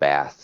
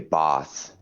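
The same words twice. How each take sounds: First: The word is said in an American accent. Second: The word is said in a British accent.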